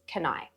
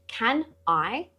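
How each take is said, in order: First: The two words run together as one. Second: The two words are said separately. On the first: The speaker calls it right. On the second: The speaker calls it wrong.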